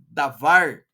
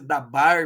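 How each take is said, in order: First: The middle consonant is a V sound. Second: The middle consonant is a B sound. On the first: The speaker calls it right. "mas se lê davar" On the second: The speaker calls it wrong. "parece dabar"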